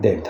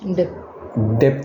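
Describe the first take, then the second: First: No b sound is heard before the final t. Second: A b sound is heard before the final t. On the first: The speaker calls it right. "डेथ, हाँ।" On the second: The speaker calls it wrong. "बी को pronounce नहीं करते, बोलो। डेप्थ नहीं बोलते"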